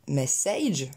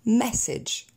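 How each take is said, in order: First: "message" stressed on the second syllable, ending like age with ay; double mistake. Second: "message" stressed on the first syllable, short second vowel; higher "message", MESS-edge; correct stress. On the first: Teacher showing une double faute, mispronunciation. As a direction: say "message" as mess-AYGE. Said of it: "déplacé l'accent tonique". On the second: Teacher correcting the double faute, correct pronunciation. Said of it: "donc on reprend". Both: Shown as a demonstration.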